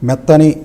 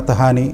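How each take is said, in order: First: It is said without an added h sound. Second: It is said with an added h sound. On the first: The speaker calls it right. "మెత్తని అనే పదం" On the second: The speaker calls it wrong. "కొద్దిగా వేరే రకంగా పలకడం"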